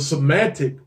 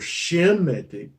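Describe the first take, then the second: First: The word begins with a plain 's' sound. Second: The word begins with an 'sh' sound.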